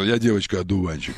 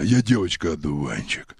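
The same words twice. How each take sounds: First: Said in the usual way. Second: Disguised deep voice. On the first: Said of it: "Запомни фразу". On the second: Shown as a demonstration. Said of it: "Вот так, да".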